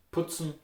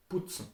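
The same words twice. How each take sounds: First: Putzen with a hard P, short U; hard consonants. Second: Putzen softly, P almost B; Austrian pronunciation. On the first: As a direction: say Putzen in Standard German. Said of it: "usually pronounced very hard". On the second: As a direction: quieter putzen with closer U. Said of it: "they are more pronounced softly". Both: Shown as a demonstration.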